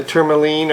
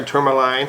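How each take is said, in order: First: Long EE in the last syllable of "tourmaline"; "tourmaline" ending in "leen". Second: Long I, as in "line", ending "tourmaline". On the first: Reviewer offering viewers one way to say the pen's color, "tourmaline" ending in "leen". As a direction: say "tourmaline" as TOUR-muh-leen. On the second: Reviewer offering viewers the other way to say the color, "tourmaline" ending in "line". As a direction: say "tourmaline" as TOUR-muh-line. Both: Shown as a demonstration. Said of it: "however you may want to pronounce it".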